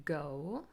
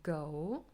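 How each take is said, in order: No difference in how they are said.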